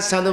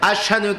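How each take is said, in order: First: The middle consonant is pronounced as 's'. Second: The middle consonant is pronounced as 'sh'. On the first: "শিনকে সিন উচ্চারণ করতেন" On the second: "শিনকে সিন উচ্চারণ করতেন"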